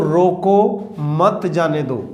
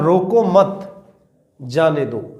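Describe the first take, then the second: First: There is a pause after the word roko. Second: There is a pause after the word mat. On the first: "अगर मैंने कहा रोको, यहां मैंने ये विराम चिन्ह लगा दिया" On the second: "यदि मैंने ये यहां लगा दिया विराम चिन्ह"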